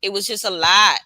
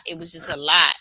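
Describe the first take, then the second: First: [name] voice. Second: Said in the usual way. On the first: Retold or imitated. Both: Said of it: "In my [name] voice".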